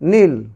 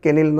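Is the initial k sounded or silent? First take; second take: silent; sounded. First: The word begins directly with the n sound. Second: A k sound is heard before the n. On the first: The speaker calls it right. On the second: The speaker calls it wrong.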